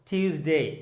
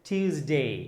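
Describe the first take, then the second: Both takes have the same delivery.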